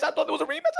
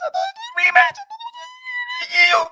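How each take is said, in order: First: Said in the usual way. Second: Hammed-up crying scream; mock anguished scream. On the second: Defending himself to Canelo fans, screaming in mock anguish.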